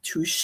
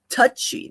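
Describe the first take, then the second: First: The name ends with an 'ay' sound. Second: The name ends with an 'ee' sound. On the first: The speaker calls it wrong. "not touche" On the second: The speaker calls it right. "I think you have to pronounce it touchy"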